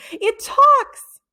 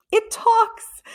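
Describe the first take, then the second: First: Much higher and louder, elated; overjoyed cry; beaming joy. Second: Much higher, delighted cry; thrilled squeal of discovery; amazed. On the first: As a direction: shout it out in triumph. Jeff beaming. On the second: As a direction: burst out in wonder. Excited discovery. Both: A narrator's reading.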